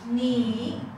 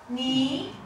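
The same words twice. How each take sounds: First: The pitch dips down, then comes up. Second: The pitch rises toward the end.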